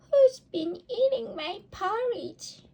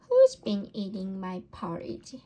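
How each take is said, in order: First: It is said in a tiny, squeaky voice. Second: It is said in a medium, ordinary voice. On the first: A little baby bear is speaking. "squeaked the baby bear in his tiny voice" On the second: A middle-sized mother bear is speaking. "in her middle-sized voice"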